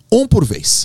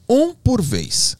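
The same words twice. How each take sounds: First: Put-on high, firm instruction to squabbling kids; retold teacher's order; calling to order. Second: Very slow, high-pitched repeated order; retold order, drawn right out; insisting. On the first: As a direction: raise your pitch to settle the kids. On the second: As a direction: stretch each word out to cut through the chatter. Repeats the order after interruption.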